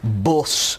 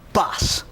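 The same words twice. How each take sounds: First: It has a heavy northern English vowel. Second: It has a softer, wider London vowel. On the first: "the very heavy vowels of the uh, of the of the north" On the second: "in London you would say"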